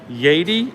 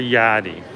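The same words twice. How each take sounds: First: The first syllable sounds like 'yay'. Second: The first syllable sounds like 'yeah'. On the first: "So like Y A Y, yay" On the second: "or Y A A H, yeah"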